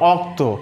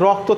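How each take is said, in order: First: The word begins directly with a vowel. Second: The word begins with an r sound. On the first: This is a changed form with the same meaning. "থেকে অক্ত" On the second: This is the original form of the word. "রক্ত থেকে"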